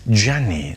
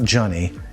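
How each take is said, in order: First: It is said the Italian way, as Gianni. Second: It is said like the English name Johnny. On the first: The speaker calls it right. "It's Gianni" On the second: The speaker calls it wrong. "not Johnny"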